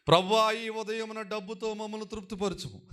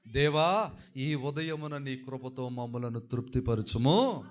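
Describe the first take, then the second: First: High-pitched mock prayer for money; mock wrong reading. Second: Slow, measured recital of a psalm; prayerful scripture reading. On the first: Preacher parodies how the congregation should not read the prayer, high mock reading. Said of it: "అలా చదవకూడదు మీరు". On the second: Preacher shows how Moses prayed for grace, slow prayerful reading. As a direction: pray it slowly, drawing out the phrases. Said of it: "మోషే గారు ఈ కీర్తనలో ప్రార్థన చేస్తూ అంటున్నారండి". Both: Shown as a demonstration.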